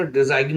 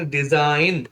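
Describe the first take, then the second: First: "डिजाइन" said as di-zaig-n; g sounded. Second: "डिजाइन" said as di-zain, no G; silent g. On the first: Teacher showing the spelling reading, G sounded in "डिजाइन". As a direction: say "डिजाइन" with a G before the N. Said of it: "जी silent अगर नहीं तो". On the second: Teacher giving the correct reading, "डिजाइन" with silent G. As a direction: say "डिजाइन" ending smoothly in N. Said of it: "जी silent है तो". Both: Shown as a demonstration.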